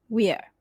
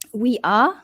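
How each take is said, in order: First: It is contracted into one syllable. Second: It is said as two full words.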